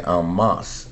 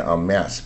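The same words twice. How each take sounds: First: "en masse" with a broad "ah" vowel in masse, like "mahss"; French-style en masse. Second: "en masse" with a flat "a" in masse, like "mass"; American en masse. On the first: Teacher showing one way some people say it, "en masse" with an "ah" in masse. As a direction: say "en masse" the French way, masse rhyming with "moss". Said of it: "有人念en masse". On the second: Teacher giving the more common US way, "en masse" with a flat "a". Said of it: "美国念en masse比较多". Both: Shown as a demonstration.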